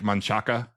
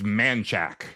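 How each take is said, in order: First: It is said with three syllables, ending in a. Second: It is said with two syllables, dropping the final a. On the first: This follows the written spelling. "spelled like Manchaca" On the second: This is how locals say it. "it's Manchac. Even though it ends in an A"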